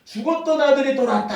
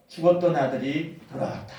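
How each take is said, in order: First: 죽었던 아들이 돌아왔다 called out higher and louder; an elated father announcing his son's return; joyful cry. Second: Tender embrace. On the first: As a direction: shout it out overjoyed. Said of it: "너무 기뻐하는 겁니다". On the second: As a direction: murmur it while holding him close. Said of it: "그 아들을 끌어안으면서". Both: Acted.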